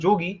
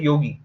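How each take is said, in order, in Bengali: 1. শব্দটি বাংলা উচ্চারণে বলা হয়েছে। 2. শব্দটি সংস্কৃত উচ্চারণে বলা হয়েছে। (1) "এই যে বাংলায় বললাম যোগী" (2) "ঠিকঠাক সংস্কৃত উচ্চারণ করতে হয়"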